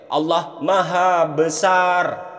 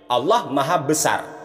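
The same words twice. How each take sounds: First: The vowels are drawn out long. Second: The vowels are said short and quick. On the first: "Panjang kan?" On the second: "Pendek teman-teman"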